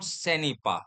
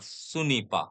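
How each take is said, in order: First: The first vowel is an unrounded 'e' sound. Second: The first vowel is a rounded 'u' sound. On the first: The speaker calls it wrong. "Not सेनीपा" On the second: The speaker calls it right. "ओ साउंड है सुनीपा"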